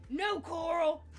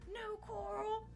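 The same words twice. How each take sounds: First: It is said loudly. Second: It is said quietly.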